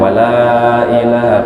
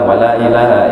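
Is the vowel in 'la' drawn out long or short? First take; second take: long; short. First: The vowel in 'la' is drawn out long. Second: The vowel in 'la' is short and flat. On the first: It denies that there is any god. The speaker calls it right. "makanya dibaca panjang" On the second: It swears that there is a god. The speaker calls it wrong. "Amun datar kayak apa?"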